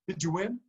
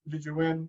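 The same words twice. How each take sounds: First: It is said with lively excitement. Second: It is said flatly without excitement. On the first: The speaker calls it right. "That's the excitement of a child opening gifts" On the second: The speaker calls it wrong. "we don't want it to be"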